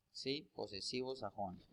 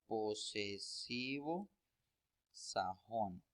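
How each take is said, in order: First: Said in the usual way. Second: Slow, each word set apart with a pause; slow spelled-out term. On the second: Shown as a demonstration. Teacher to students naming the grammar term, slow and deliberate. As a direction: lay out the term slowly for students to note. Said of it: "con el nombre de".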